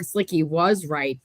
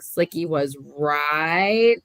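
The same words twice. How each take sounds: First: It ends with a falling, statement tune. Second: It ends with a rising, questioning tune.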